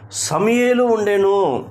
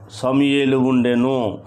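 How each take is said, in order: First: High, drawn-out proclamation; emphatic answer. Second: Said in the usual way. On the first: Real, not acted. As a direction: raise the pitch high and stretch it out. Answers own question to congregation, emphatically. (గట్టిగా నొక్కి, పై స్వరంలో సాగదీస్తూ)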